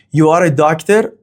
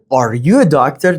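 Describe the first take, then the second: First: Said in the usual way. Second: "Are you a doctor" going up at the end; rising intonation. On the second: Shown as a demonstration. Teacher demonstrating a yes-no question, rising intonation. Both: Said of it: "The intonation goes up".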